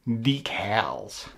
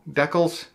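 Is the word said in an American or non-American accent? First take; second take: American; non-American. First: It is said in an American accent. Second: It is said in his usual non-American accent.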